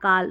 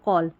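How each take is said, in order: First: The vowel is an open 'ah' sound. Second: The vowel is a rounded 'aw' sound. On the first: The speaker calls it wrong. "ऐसे नहीं पढ़ेंगे" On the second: The speaker calls it right. "इस तरीके से आप pronounce करेंगे"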